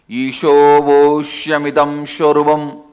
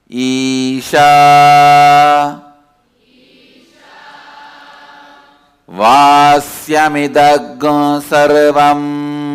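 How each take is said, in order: First: The vowels are pronounced as o sounds. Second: The vowels are pronounced as a sounds. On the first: "in Bengal all the A will become O" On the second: "I will be pronouncing"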